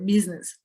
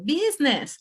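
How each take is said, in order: First: The first vowel is short, with a voiced middle. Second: The first vowel is drawn out long. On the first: The speaker calls it right. "we have a, a vibration here" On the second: The speaker calls it wrong. "They uh, make the E longer"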